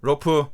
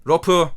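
Both takes have the same delivery.

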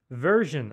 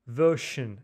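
First: It is said with an American accent. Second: It is said with a British accent. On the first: "Version, американская" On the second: "Version, британская вообще"

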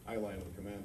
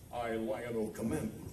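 First: It is said plainly, like ordinary conversation. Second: It is said dramatically, like a heroic proclamation. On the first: "I might sit here and say to you" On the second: "it's more dramatic"

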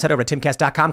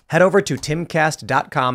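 First: It is said at a normal, quick pace. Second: It is said a little more slowly.

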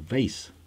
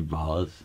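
First: It is said with an American pronunciation. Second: It is said with a non-American pronunciation. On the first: "in America you will say vase" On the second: "I say vase"

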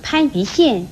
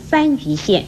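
First: The first syllable starts with a p sound. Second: The first syllable starts with an f sound. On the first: The speaker calls it right. "广东省番禺县也不可以念成" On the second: The speaker calls it wrong. "不可以念成番禺县"

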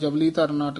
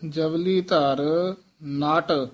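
First: The words are run together without breaks. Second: The words are said separately with small breaks. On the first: The speaker calls it wrong. "ਇਕੱਠਾ ਨਹੀਂ ਕਹਿ ਦੇਣਾ" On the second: The speaker calls it right. "ਇਹ ਵੱਖਰੇ ਬੋਲਣਾ"

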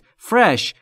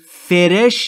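First: No vowel sounds between the F and R. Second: An extra vowel sounds between the F and R. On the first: The speaker calls it right. "بین F و R صدایی وجود نداره" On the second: The speaker calls it wrong. "فرش نیست"

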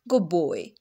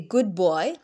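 First: The end of 'good' blends into a 'b' sound. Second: The end of 'good' is a clear 'd' sound. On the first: The speaker calls it right. "the first initial sound of the second word will dominate the first one. We will say good boy" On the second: The speaker calls it wrong. "in rapid speech, we will not say good boy"

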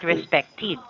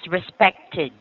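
First: The ending is not said like 'id'. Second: The ending is said like 'id'. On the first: The speaker calls it wrong. "Not respected" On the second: The speaker calls it right. "this sounds like id"

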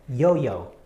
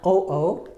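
First: The syllables start with a y glide. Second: The syllables start directly with a vowel. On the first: The speaker calls it right. "instead it becomes yo-yo" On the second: The speaker calls it wrong. "Not o-o"

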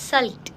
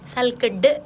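First: The word ends with a T sound. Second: The word ends with a D sound. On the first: The speaker calls it right. "ఇలా టీ sound వచ్చేలాగా పలకాలి" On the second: The speaker calls it wrong. "డ్ sound అవదు"

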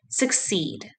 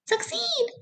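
First: The word is said in a normal voice. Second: The word is said in a squeaky voice. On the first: "Say the word succeed with me" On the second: "Can you say it in a mouse voice?"

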